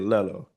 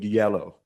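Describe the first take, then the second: First: The word begins with an L sound. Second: The word begins with a Y sound. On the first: The speaker calls it wrong. "I would always say lello" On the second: The speaker calls it right. "I couldn't say the word yellow"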